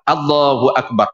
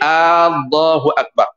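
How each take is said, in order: First: The opening vowel is kept short. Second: The opening vowel is drawn out long. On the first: The speaker calls it right. "Itu sahaja" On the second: The speaker calls it wrong. "Tak boleh Allahu Akbar. Jangan panjangkan"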